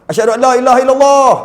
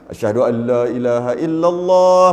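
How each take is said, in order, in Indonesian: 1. Dibaca dengan datar, tanpa lagu yang panjang. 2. Dibaca dengan lagu yang panjang dan mendayu. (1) "kalau straight je" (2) "Ini marilah la"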